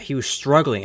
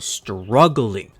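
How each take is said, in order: First: Said in the usual way. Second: "struggling" drawn out slowly, hit hard; emphasis on STRUGGLING. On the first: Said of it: "and I mean struggling". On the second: Real, not acted. Fan stressing how bad his season was, "struggling" slow and emphatic. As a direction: stretch out "struggling" for weight. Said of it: "put more emphasis on the word struggle".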